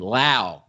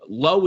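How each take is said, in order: First: The name rhymes with cow. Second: The name rhymes with go. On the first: The speaker calls it right. "L A U for Lau" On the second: The speaker calls it wrong. "I said it wrong here"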